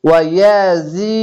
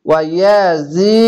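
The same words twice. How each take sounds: The two takes are said the same way.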